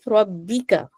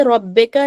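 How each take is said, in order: First: रब्बिका said as "rab-bee-ka"; correct kasra vowel. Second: रब्बिका said as "rab-bay-ka"; wrong kasra vowel. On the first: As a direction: keep the middle vowel of रब्बिका a thin "i". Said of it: "रब्बिका नहीं, रब्बिका". (रब्बिका, बीच में बारीक इ) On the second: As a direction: open the middle vowel of रब्बिका to "e". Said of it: "रब्बिका नहीं". (रब्बिका, बीच में ए की आवाज़) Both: Shown as a demonstration.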